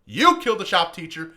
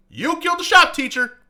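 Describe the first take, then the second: First: Said in the usual way. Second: Much higher, louder yell of the accusation. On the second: Retold or imitated. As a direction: shout the line out at him. Repeated accusation, louder take.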